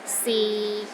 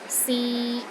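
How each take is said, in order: First: The pitch stays low and level. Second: The pitch stays level in the middle. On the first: It means is. "low and steady, but not as low as the fourth tone" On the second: It means to try. "a mid-tone"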